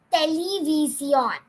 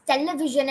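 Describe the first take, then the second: First: Television as te-le-vee-see-ON, slow; Spanish pronunciation. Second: Television ending in a zh sound, te-le-vi-ZHON; mistaken pronunciation. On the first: Teacher giving the correct form, television as te-le-vee-see-ON. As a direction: clear s and stressed final ON in television. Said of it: "you pronounce it as". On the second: Teacher showing what not to say, television with zh ending. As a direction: say television with English zh in the last syllable. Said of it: "you don't pronounce". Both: Shown as a demonstration.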